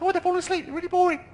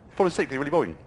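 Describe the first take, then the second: First: It is said in a Mickey Mouse voice. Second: It is said very fast.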